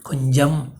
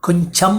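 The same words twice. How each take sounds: First: The middle consonant is a soft j sound. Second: The middle consonant is not a j sound. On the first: The speaker calls it right. "ஜன்னு தான் வரும்" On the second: The speaker calls it wrong. "என்று வராது"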